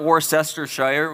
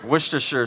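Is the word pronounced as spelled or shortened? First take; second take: as spelled; shortened. First: Every written syllable is pronounced in full. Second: Some syllables are dropped, making it shorter. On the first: The speaker calls it wrong. "So it's not Worcestershire, which is what it looks like" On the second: The speaker calls it right. "something like that"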